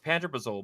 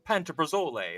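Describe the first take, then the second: First: The word is said in a plain English accent. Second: The word is said with an Italian-sounding accent. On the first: The speaker calls it right. "because it's pantoprazole" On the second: The speaker calls it wrong. "I keep reading it as like it's with an Italian accent"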